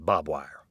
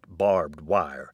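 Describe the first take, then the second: First: The first word sounds like bob, without r. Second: The first word keeps its r and final d. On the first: The speaker calls it wrong. "many of us ... say" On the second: The speaker calls it right. "It's actually pronounced"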